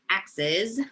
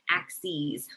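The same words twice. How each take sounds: First: The last syllable has a short i sound. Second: The last syllable has a long e sound. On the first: It is the plural of axe. The speaker calls it wrong. "it looks like axes. So like you're a lumberjack" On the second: It is the plural of axis. The speaker calls it right. "you actually pronounce it axes ... with a long E at the end"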